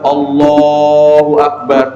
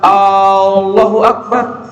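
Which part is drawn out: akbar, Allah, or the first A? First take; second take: Allah; first A. First: The vowel in Allah is drawn out long. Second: The opening A sound is drawn out long. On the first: The speaker calls it right. "yang harus dia panjangkan adalah kalimat Allahnya" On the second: The speaker calls it wrong. "kalimat A-nya yang dipanjangkan"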